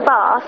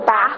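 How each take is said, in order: First: Said in a non-Northumbrian English regional accent. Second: Said in a Northumbrian English regional accent. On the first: "like I do" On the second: "In Northumberland, they pronounce by, like, instead of saying bath, like I do, they say bath"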